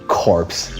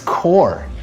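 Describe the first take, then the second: First: The word ends with a 'ps' sound. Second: The word ends on the 'r' sound. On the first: The speaker calls it wrong. "Did you say corpse?" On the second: The speaker calls it right. "It's core. That's how you pronounce it"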